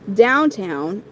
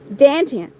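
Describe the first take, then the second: First: The vowels are plain, standard 'ow' sounds. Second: The vowels are flattened, Philadelphia-style 'a' sounds.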